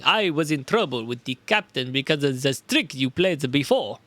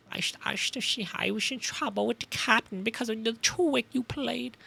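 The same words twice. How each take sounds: First: Put-on a shaky try at a Russian sailor accent; attempted Russian accent. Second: A hint of a sinister German professor, softer; lightly voiced German villain with a soft menace; evil German professor voice. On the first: Sailor accusing the detective, in an attempted Russian accent. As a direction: try for Russian but slide back into German. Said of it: "That's still my fucking tr- the other voice". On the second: Sailor accusing the detective, in a faint German villain voice. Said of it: "the other voice".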